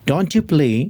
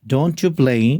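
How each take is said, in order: Both takes have the same delivery.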